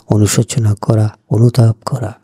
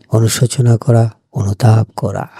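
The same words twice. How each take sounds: The two takes are said the same way.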